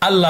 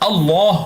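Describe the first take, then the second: First: The L sound is light and thin. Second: The L sound is heavy and full. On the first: The speaker calls it wrong. "আল্লাহ হবে না" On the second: The speaker calls it right. "আল্লাহ হবে"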